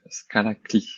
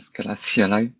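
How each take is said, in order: First: CLI is spoken as a single word. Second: CLI is spoken as three separate letters. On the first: "if you read C L I uh, in French and uh, as a word rather than as an acronym" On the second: "which I think is how uh, native English speakers uh, should, are pronouncing it"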